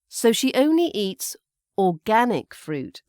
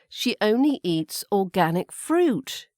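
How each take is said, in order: First: The word organic carries the stress. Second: The word fruit carries the stress. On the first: She doesn't eat conventional fruit. "So organic is the word stress" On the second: Not other organic foods, just the fruit. "So not any other organic foods, just the fruit"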